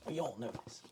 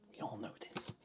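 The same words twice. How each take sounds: First: Said in the usual way. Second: Hushed conspiratorial aside; mock-secret whisper to the chat. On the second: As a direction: whisper it like a secret everyone knows. Whispered repeat of line 60.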